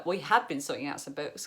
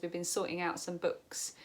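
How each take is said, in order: First: "had" stressed as a self-correction. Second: Said in the usual way. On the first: Real, not acted. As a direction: lean on "had" to correct yourself. Corrects the tense with emphasis.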